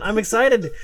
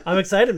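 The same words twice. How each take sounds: First: Louder, higher, stressed "excited" with a falling end; excited, emphatic. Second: Louder, eager excitement; excited. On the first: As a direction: repeat "excited" firmer and higher, landing it. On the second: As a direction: say it with real excitement. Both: Real, not acted.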